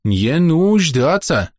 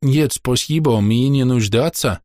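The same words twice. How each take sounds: First: Very slow, high, firm broken Russian; «не нуждаться» drawn out slowly, each syllable firm. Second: Broken Russian. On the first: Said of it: "повторила Рис". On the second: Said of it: "коверкая слова". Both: A narrator's reading.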